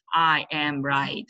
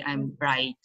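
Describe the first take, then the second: First: I AM right, slow, each word weighted; wrong sentence stress. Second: Contracted "I'm", weight on RIGHT; stress on RIGHT. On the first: Teacher shows how learners misplace sentence stress, every word stressed. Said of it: "It's not should be". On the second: Teacher shows the proper sentence stress, stress on right. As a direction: let "I'm" go light and land on "right". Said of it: "the stress should be right". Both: Shown as a demonstration.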